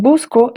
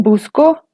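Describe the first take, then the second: First: "busco" with the weight on "bus"; BUS-co, front-stressed; first-syllable stress. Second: "busco" with the weight on "co"; bus-CO, end-stressed; final-syllable stress. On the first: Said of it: "el acento está en la primera sílaba". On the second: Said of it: "el acento está sobre la segunda sílaba". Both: Shown as a demonstration.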